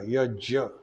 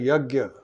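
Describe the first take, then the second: First: The middle consonant is a j sound. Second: The middle consonant is a hard g sound. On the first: The speaker calls it right. "It is ja, ya, yajya" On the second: The speaker calls it wrong. "people pronounce it as yagya. It is not correct"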